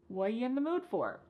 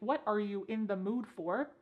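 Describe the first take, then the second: First: The opening words are squeezed almost to nothing. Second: Every word is pronounced fully and separately. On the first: "This is extremely reduced" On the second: "instead of saying"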